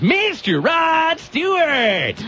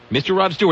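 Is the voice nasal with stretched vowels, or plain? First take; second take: nasal; plain. First: Loud nasal voice with vowels stretched into two. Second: Plain voice with normal, single-syllable vowels. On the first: "shove everything into your nose. Turn on the mic, yell a lot, and make every vowel sound two syllables" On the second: "So it wasn't like"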